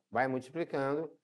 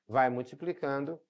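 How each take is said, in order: Both takes have the same delivery.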